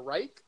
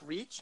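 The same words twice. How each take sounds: First: "Reich" said like "rike", rhyming with "like"; correct pronunciation. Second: "Reich" said like "reach", with a ch ending; unsure pronunciation. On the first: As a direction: say "Reich" with an eye vowel and a hard k. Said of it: "Reich. That's what I thought it was". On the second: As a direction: say "Reich" with a long ee and a final ch. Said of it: "I don't know how to say his". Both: Shown as a demonstration.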